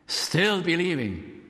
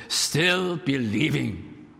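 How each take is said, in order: First: Slow, raised. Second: Slow, savoured. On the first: Climax of the point. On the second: Repeating the revival greeting. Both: Acted.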